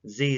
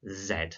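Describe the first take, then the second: First: The letter name is said the American way. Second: The letter name is said the British way. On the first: "Z is the American name for this letter" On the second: "in British English, it is called Z"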